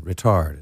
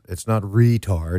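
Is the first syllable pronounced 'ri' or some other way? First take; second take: ri; other. First: The first syllable is pronounced 'ri'. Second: The first syllable is not pronounced 'ri'. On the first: The speaker calls it right. "it's ri. It's Italian, I believe. R-I-T-A-R-D" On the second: The speaker calls it wrong.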